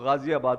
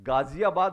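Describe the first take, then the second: First: It begins with 'gh' and 'z' sounds. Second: It begins with plain 'g' and 'j' sounds. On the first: The speaker calls it right. "नुक्ता लगाएंगे तो गाजियाबाद बोलेंगे" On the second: The speaker calls it wrong. "गाजियाबाद नहीं है वो"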